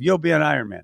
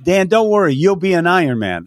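First: Softer, firm and deliberate, as if pointing right at him; quiet emphatic vow; pointed promise. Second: Higher, emphatic reassurance to a nervous friend; upbeat pep talk, pitched up; encouraging call. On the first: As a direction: lock eyes and promise it. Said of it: "I actually pointed at him and said". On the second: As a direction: pump him up before the race. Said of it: "I said". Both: Retold or imitated.

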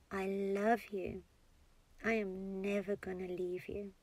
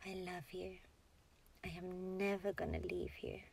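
First: Out loud. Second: Very soft, near-whispered self-soothing; inner voice. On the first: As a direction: say it aloud gently, taking your time. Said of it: "saying it out loud now". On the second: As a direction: murmur it softly as if only to yourself. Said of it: "Say it in your inner voice". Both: Shown as a demonstration.

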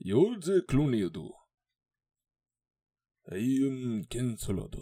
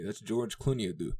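First: Higher, hammed-up mock Japanese accent. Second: Said in the usual way. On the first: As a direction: put on an exaggerated Japanese accent, drawn out. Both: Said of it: "busted out my Japanese voice".

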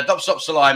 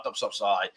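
First: Said in the usual way. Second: Low, soft mock brush-off; dismissive. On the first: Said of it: "means, like". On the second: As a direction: mutter it like a offhand whatever. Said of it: "if someone's, like, in your face".

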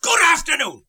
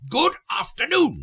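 First: Much higher and louder, final angry goodbye; exasperated dismissal. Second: Much higher, clipped goodbye; sharp dismissal. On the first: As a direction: throw him out with it. Scrooge dismisses nephew third time. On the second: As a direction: snap the door shut with it. Scrooge repeats dismissal sharper. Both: Acted.

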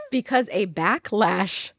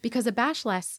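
First: "backlash" slow and deliberate, clear ck before lash; slow retake landing "backlash" correctly; careful correction. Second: "backlash" slurred into "bash-lass"; "backlash" muddled, sh in place of ck; tongue slip. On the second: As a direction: trip over "backlash", saying it as "bashlass". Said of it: "sorry, I can't talk today". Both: Real, not acted.

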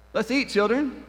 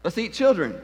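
First: Put-on "Let's eat, children." with a break after "eat", rising on "eat"; "Let's eat" lifted high, then a pause before "children.". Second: Put-on "Let's eat, children." run together, falling on "children."; "Let's eat, children." with the weight on "children."; run-on phrase. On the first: Preacher showing the comma, stressing "eat". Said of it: "seen anybody do something like this". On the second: Preacher showing the missing comma, stressing "children". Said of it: "Very, very different where you place the emphasis". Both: Shown as a demonstration.

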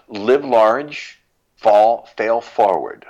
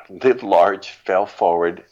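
First: Louder, higher, punchy motto; rallying motto. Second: Said in the usual way. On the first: Real, not acted. Parting motto to listeners, louder and higher. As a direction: call it out like a slogan. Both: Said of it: "any final words".

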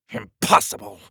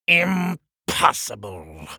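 First: High, sudden burst of disbelief; outraged king. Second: IMPOSSIBLE drawn out very slowly; seething king. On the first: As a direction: snap out IMPOSSIBLE in one go. King rejects wizard's idea in fury. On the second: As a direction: stretch each part of IMPOSSIBLE with a pause. King repeats it, glaring at door. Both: Acted.

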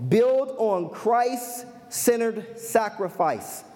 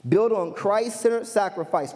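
First: Drawn-out delivery with gaps between phrases; measured, deliberate pace; slow, spaced-out emphasis. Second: Said in the usual way. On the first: Real, not acted. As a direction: announce the point slowly, letting each part land. Reads out the point slowly, then repeats.

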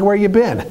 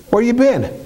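First: Mock angry wife. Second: Same question pushed higher, more insistent; angry wife repeating. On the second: Retold or imitated. Wife grilling her husband at the door, higher and insistent. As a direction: press her again, pitch rising. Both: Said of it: "she's like".

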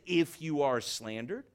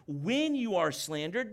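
First: "If" stressed, dropping lower. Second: "When" stressed, rising at the start. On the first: Preacher contrasting the misreading with stress on "If". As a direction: set "If" apart as the wrong reading. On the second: Preacher reading the verse with weight on "When". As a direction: lean on "When" to show it is certain. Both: Shown as a demonstration. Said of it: "notice it doesn't say".

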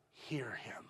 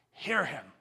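First: Hushed whisper of the command. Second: Said in the usual way. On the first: Acted. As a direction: breathe it to their soul. Preacher drops to whisper.

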